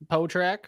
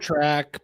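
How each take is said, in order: First: The name begins with a p sound. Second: The name begins with an s sound. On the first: The speaker calls it right. "this S is silent" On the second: The speaker calls it wrong. "I always said Spotrack, but I don't think that's right"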